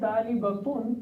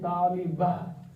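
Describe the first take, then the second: First: The word ends with a -tun syllable. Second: The word ends with a soft h sound. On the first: The word continues into following speech. "which is actually talibatun" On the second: The word ends at a pause. "when you start stop there, this becomes ha"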